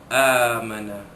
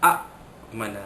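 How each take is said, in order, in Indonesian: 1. Vokal pertama panjang, tanpa hamzah. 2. Hamzah muncul setelah vokal pertama yang pendek. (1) "hamzah yang mati itu ditukar menjadi huruf mad, maka amana" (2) "kerana asalnya a mana"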